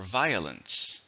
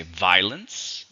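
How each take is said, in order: First: "violence" in three syllables, VYE-uh-lence; three-syllable pronunciation. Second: "violence" in two syllables, VYE-lence; two-syllable pronunciation. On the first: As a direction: give "violence" a clear middle vowel, vi-o-lence. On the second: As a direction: run "violence" together as vile-ence. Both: Shown as a demonstration. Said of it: "three syllables or two".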